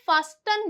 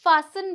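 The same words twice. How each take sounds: First: "फास्टन" with the t pronounced; "फास्टन" with a hard t after s; mistaken sounded T. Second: "फासन" with no t; "फासन" with s straight into n; silent T. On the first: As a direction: say "फास्टन" as faas-tun. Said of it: "बहुत से लोग इसे फास्टन बोलते हैं". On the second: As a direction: say "फासन" as faa-sun. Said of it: "तो इसे क्या बोलेंगे हम". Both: Shown as a demonstration.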